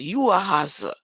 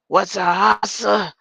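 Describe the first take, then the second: First: Said in the usual way. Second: Loud, slow rap-star growl. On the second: Retold or imitated. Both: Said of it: "In my [name] voice".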